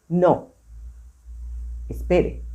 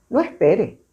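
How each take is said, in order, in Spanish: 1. Hay una pausa después de 'No'. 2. Se lee de corrido, sin pausa. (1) "voy a hacer la pausa donde está la coma" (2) "voy a leer corrido donde no está"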